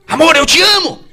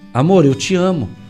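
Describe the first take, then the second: First: It is said in a harsh, rough tone. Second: It is said in a gentle, loving tone.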